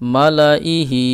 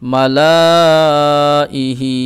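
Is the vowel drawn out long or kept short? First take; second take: short; long. First: The vowels are kept short, without stretching. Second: A vowel is stretched out long. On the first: The speaker calls it right. "এইভাবে পড়ব" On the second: The speaker calls it wrong. "এই যে এই টান দিলাম, এটা এইভাবে পড়বো না"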